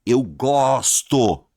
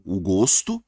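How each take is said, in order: First: "gosto" with a long open O, as the verb; loud, slow "gosto", O wide open. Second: "gosto" with a closed O, as the noun. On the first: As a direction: say "gosto" with O as in "avó". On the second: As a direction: round the O of "gosto". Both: Shown as a demonstration. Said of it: "Mudou um pouquinho o som".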